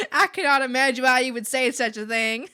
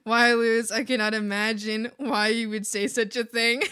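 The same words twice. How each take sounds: First: Louder, hammed-up Southern belle accent with laughter. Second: Mock-offended Southern belle accent. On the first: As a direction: push the Southern belle over the top, laughing. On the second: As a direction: play a loud Southern belle, amused. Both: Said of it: "Southern Belle".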